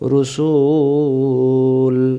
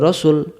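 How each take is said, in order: First: The vowel in the word is drawn out long. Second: The vowel in the word is kept short. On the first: It refers to a single prophet. The speaker calls it wrong. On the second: It refers to many prophets. The speaker calls it right.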